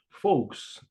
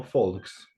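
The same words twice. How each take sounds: First: "folks" said with no L, like "fohks"; silent L in folks. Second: "folks" said wrongly with the L pronounced; wrongly sounded L. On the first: English teacher modelling the word for learners, silent L in "folks". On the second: English teacher showing learners the mistake, L sounded in "folks". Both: Shown as a demonstration. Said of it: "no folks".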